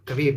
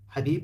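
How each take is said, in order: First: The name begins with a hard k sound. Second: The name begins with a breathy h sound. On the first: The speaker calls it wrong. "الإنجليزي شيء بعيد جدا، يقولون كبيب" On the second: The speaker calls it right. "ببدل حبيب"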